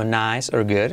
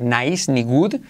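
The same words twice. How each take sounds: First: "nice" in one syllable, "good" with short English vowel; pronunciación inglesa correcta. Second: "nice" as na-is, "good" with a Spanish oo; pronunciación española errónea. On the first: ("nice or good" con vocales inglesas) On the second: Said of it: "Cuidado no decir". ("nice" y "good" con vocales españolas, mal dichos) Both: Shown as a demonstration.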